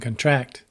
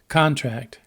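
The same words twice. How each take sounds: First: The stress falls where the verb puts it. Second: The stress falls where the noun puts it. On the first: It names an action. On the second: It names a thing.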